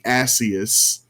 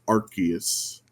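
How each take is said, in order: First: The first syllable sounds like the word arse. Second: The first syllable does not sound like arse. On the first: The name sounds like a rude word. The speaker calls it wrong. "in British speech, arse is ass, so they didn't want it to be Asius" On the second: The name avoids sounding like a rude word. The speaker calls it right. "so the pronunciation is Arceus"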